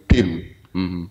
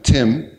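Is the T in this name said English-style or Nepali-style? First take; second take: Nepali; English. First: The T is pronounced the Nepali way. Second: The T is pronounced the English way. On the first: "people who speak Nepali always say Tim" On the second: "I'm Tim"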